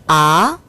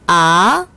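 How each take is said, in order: First: The pitch rises from mid to high. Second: The same.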